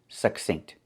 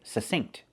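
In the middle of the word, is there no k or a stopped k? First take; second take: stopped k; no k. First: A stopped, unreleased k comes before the s. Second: No k sound comes before the s. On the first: "I prefer to pronounce it succinct with that stop K" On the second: "some people don't pronounce the K, they just say succinct"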